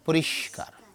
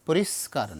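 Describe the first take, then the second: First: The consonant before k sounds like sh. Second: The consonant before k sounds like s. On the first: The speaker calls it right. "শীষ ধ্বনি" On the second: The speaker calls it wrong. "পরিষ্কার নয়"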